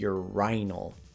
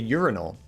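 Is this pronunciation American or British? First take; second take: British; American. First: It is said with a British pronunciation. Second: It is said with an American pronunciation. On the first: "It's actually urinal" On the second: "See, I say urinal"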